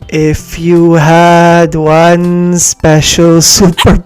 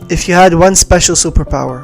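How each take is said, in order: First: It is said slowly. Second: It is said at normal speed.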